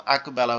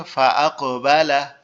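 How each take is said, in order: First: Said in the usual way. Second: Slow "আকবালা" with a bouncing echo on the ক; qalqala echo. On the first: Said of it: "double উচ্চারণ না করতাম". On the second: Shown as a demonstration. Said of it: "double উচ্চারণ করলে কি হচ্ছে". ("আকবালা"-র ক-এ কলকলা করে double উচ্চারণ)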